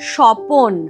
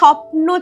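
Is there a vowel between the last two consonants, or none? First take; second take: vowel; none. First: A vowel is inserted between the final consonants. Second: The final consonants are said together as a cluster. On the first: "হয়ে গেছে স্বপন, অর্থাৎ প অ ন, কেমন মাঝখানে এসেছে" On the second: "এই যে স্বপ্ন ছিল"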